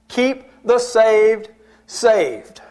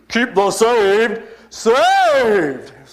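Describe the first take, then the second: First: It is said in the speaker's ordinary voice. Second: It is said in a changed, dramatic put-on voice. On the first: "I wish I could use his voice inflection when he said it" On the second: "He went from his normal voice to"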